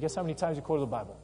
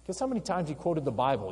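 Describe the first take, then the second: First: Faster teasing repeat of the question; quicker repeat. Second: Said in the usual way. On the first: Real, not acted. Teacher repeating the quiz question faster to the class. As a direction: rush the question again as a nudge. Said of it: "You may have noticed it". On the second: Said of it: "but guess how many times he quoted the Bible".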